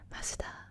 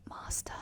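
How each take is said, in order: First: It has an added vowel between the consonants. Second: It ends in a plain English vowel, no extra syllable. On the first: "doesn't sound like masuda" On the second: "master is not, doesn't sound like masuda"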